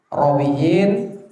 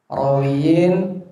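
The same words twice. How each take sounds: Both takes have the same delivery.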